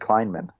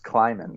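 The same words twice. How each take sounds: First: The name has an n sound before the m. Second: The name has no n sound before the m. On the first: The speaker calls it wrong. "you said Kleinman" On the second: The speaker calls it right. "It's just Kleinman. There's no N until the end"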